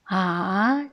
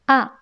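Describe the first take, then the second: First: The pitch dips low, then rises. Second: The pitch falls sharply from high to low. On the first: It expresses doubt. "A se prononce le troisième ton Ah" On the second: It expresses certainty. "A se prononce quatrième ton, c'est A"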